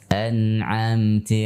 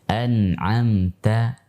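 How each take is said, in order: First: The final vowel sounds like i. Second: The final vowel sounds like a. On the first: The speaker calls it wrong. "ti menyerupai kasrah" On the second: The speaker calls it right. "kaidah mengucapkan fathah yang benar"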